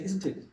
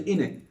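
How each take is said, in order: First: Every sound of both words is said clearly. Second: It is squeezed into one short word. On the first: This is formal speech for a superior. "And we say" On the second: This is casual slang. "Like here I say in it"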